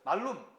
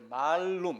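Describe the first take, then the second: First: The first vowel is said short. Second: The first vowel is said long. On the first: It means evil. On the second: It means apple.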